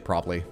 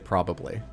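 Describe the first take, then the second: First: The word is clipped, with syllables run together. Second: Every syllable of the word is clearly pronounced. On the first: This is the casual everyday way of speaking. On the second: This is the careful way of speaking.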